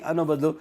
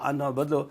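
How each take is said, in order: Both takes have the same delivery.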